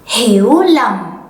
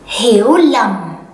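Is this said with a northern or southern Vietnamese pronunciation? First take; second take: southern; southern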